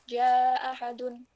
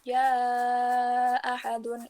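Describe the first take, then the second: First: The vowel before ahadun is held only briefly. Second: The vowel before ahadun is held very long. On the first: "enam atau dua" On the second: "bisa yang panjang banget"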